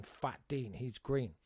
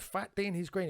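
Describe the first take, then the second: First: Said in the usual way. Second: Higher bemused read-out; puzzled repeat. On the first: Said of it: "on it was written". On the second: Retold or imitated. Reading graffiti aloud to his mate, bemused. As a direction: repeat it, baffled. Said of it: "and I went".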